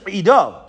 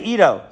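First: The name begins with a deep throat sound. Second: The name begins with a plain vowel. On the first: The speaker calls it right. "but it's really Edo" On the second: The speaker calls it wrong. "I am from Haifa, so I say Edo"

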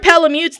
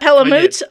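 First: It is pronounced to rhyme with Malamute. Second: It is pronounced not rhyming with Malamute. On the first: The speaker calls it right. "They are Palamutes. ... called Palamutes because there's ... a breed of dog called the Malamute" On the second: The speaker calls it wrong. "They are not Palamutes"

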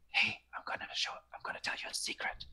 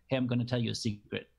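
First: It is said in a whisper. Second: It is said in a normal voice. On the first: It draws the listener in to pay attention. The speaker calls it right. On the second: It draws less attention from the listener. The speaker calls it wrong.

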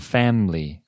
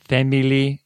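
First: The word is said with two syllables. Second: The word is said with three syllables. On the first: The speaker calls it right. "음절 두 개" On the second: The speaker calls it wrong. "family 아니고"

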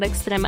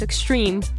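First: The name is pronounced the Spanish way. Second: The name is pronounced the English way. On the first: The speaker calls it wrong. "not extreme. I thought we had a Spanish pronunciation of that" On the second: The speaker calls it right. "Chewy's telling me it's extreme"

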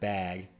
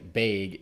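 First: It is said in a non-Midwestern way. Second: It is said in a Midwestern way. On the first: This is how the speaker says it. "instead of bag" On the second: This is how the Midwesterners say it. "they all say bag"

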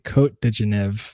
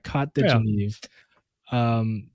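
First: It is said without a stereotypical French accent. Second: It is said with a stereotypical French accent. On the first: "I was trying not to say it with like a stereotypical French accent" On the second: "I'll do it like that"

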